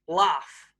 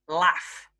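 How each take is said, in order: First: The vowel is a long open 'ah' sound. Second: The vowel is a short flat 'a' sound. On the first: The speaker is from southern England. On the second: The speaker is from northern England.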